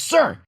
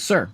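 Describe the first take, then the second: First: It is said very loudly. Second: It is said softly.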